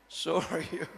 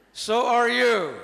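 First: Said in the usual way. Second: Slow, loud So are you with are stressed and falling. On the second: Shown as a demonstration. Preacher urging the congregation, stressing are. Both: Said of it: "Say yes".

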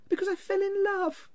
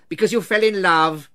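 First: Very high, light voice; earnest young nephew. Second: Loud, incredulous repeat; scornful echo. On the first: Nephew explaining his marriage to his uncle, high earnestness. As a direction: answer in a high, innocent lilt. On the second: Scrooge echoing his nephew's reason, loud scorn. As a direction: throw it back with loud disgust. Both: A narrator's reading.

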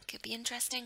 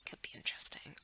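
First: Said in the usual way. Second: "Could be interesting." as an unvoiced teasing whisper. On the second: Real, not acted. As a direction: breathe "Could be interesting." softly. Repeats the line whispered.

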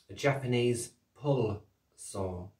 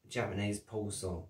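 First: Slow, careful "Japanese pull saw", every word spaced out; said slowly. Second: Said in the usual way. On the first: Shown as a demonstration. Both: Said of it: "I say that slowly 'cause of my accent".

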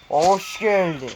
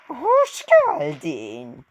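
First: Slow, theatrical welcome; drawn-out greeting. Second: Very slow, high-pitched mock welcome; put-on character greeting. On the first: Pretend. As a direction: stretch out the welcome in your own voice. Greeting the boss, first take. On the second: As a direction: squeal the welcome high, stretching each word. Acts the boss greeting back.

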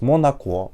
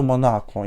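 First: "Монако" ending on a stressed O; stress on last syllable. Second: "Монако" stressed on the middle A; stress on second syllable. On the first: Retold or imitated. Repeating the lyric's mistake, "Монако" with final-syllable stress. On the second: Shown as a demonstration. Correcting the singer's lyric, "Монако" with middle-syllable stress. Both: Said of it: "взагалі-то Монако, я звиняюсь".

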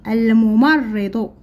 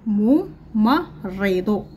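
First: Said in the usual way. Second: الممرض stretched slowly syllable by syllable; الممرض drawn out slowly. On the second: Shown as a demonstration. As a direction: spell out الممرض slowly for the class. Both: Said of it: "لدينا الكلمات نقرأها".

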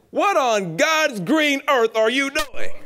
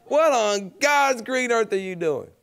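First: High, slow, loud scolding granny voice; a stern grandmother catching kids at mischief. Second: High, slow grandma's scolding; a lighter replay of the scolding granny; repeating grandmother's line for the audience, slow and high; echo of grandmother. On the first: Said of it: "She said". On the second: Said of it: "I was born with this stuff". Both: Retold or imitated.

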